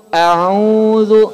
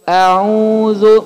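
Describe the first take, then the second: The two takes are said the same way.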